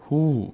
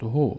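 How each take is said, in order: First: "هو" as a long hoo; long vowel. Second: "هو" as a short ho; brief o in "هو"; short vowel. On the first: Teacher adding vav to he, long "هو" as hoo. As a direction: stretch the oo in "هو". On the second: Teacher showing he alone, short "هو" as ho. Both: Shown as a demonstration.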